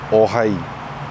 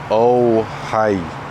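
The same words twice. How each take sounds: First: The O vowel stays steady without gliding. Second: The O vowel glides toward a W sound. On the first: The speaker calls it right. "keep your mouth in the same position" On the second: The speaker calls it wrong. "instead of"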